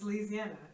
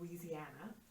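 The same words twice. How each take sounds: First: Some syllables of the word are run together. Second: Every syllable of the word is clearly pronounced. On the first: The speaker sounds like an insider. The speaker calls it right. "you do not pronounce the syllables" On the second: The speaker sounds like an outsider. The speaker calls it wrong. "I would never pronounce every syllable"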